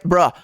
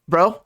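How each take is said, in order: First: The word ends with an 'uh' vowel. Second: The word ends with an 'oh' vowel. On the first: It is the current way kids say it. The speaker calls it right. "It's bruh. B R U H, that's the proper pronunciation" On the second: It marks the speaker as older. The speaker calls it wrong. "I act my age when I say bro"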